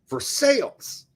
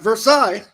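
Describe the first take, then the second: First: It is the local Ohio pronunciation. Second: It is not the local Ohio pronunciation. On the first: This is how locals say the town's name. The speaker calls it right. "they pronounce it Versailles" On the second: This is not how the town's name is said. The speaker calls it wrong. "not Versailles"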